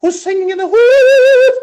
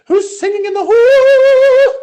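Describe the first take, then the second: First: Put-on Welsh accent, much higher and louder, sung out; a Welsh choir teacher calls out again, singing. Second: Put-on Welsh accent, much higher and louder, slow and sung; a Welsh choir teacher calling down the hall in song. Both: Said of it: "So she had an accent".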